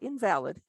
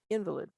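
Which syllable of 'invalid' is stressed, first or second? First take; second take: second; first. First: The stress is on the second syllable. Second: The stress is on the first syllable. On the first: Something is not valid. The speaker calls it wrong. "not invalid" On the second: The speaker calls it right.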